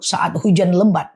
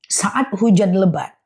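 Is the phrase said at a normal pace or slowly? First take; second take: normal; slowly. First: The phrase is said at a normal pace. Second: The phrase is said slowly and deliberately.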